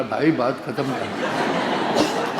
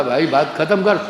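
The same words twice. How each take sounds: First: Lower, slow parroted plea; imitating little brother's echo. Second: Firm, mildly fed-up appeal; retold exasperated plea. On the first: Little brother aping elder brother, slow low echo. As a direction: drag out the copied words. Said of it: "acting भी वैसे ही कर रहा था". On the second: Elder brother wanting it over, exasperated plea. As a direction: try to end the game, insistently.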